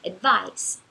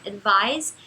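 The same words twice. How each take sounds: First: "advice" with a voiceless S at the end; "advice" said with final S, not Z. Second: "advise" with a voiced Z at the end; "advise" said with final Z, not S. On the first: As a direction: let the end of "advice" hiss as S. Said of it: "esse é mais fácil de distinguir". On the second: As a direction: let the end of "advise" buzz as Z. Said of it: "a gente pronuncia com som de Z". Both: Shown as a demonstration.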